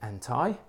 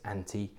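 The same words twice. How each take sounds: First: It is said in a North American accent. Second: It is said in a British accent.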